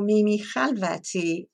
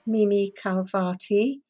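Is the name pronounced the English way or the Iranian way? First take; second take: Iranian; English. First: The name is said with an Iranian pronunciation. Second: The name is said with an English pronunciation. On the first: "then the Iranian" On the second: "first the English pronunciation"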